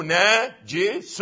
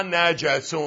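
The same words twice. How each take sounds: First: "ناجس" as na-ji-sun, slowly, syllable by syllable; kasra reading. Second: "نجس" as na-ja-sun, drawn out; fatha reading. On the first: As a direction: read "ناجس" with an i after the jim. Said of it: "قرأها نجس أو". («ناجس» بكسر الجيم، ببطء) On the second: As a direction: read "نجس" slowly with an a after the jim. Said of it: "والشريف أنه ماذا؟ قرأها". («نجس» بفتح الجيم، ببطء) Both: Shown as a demonstration.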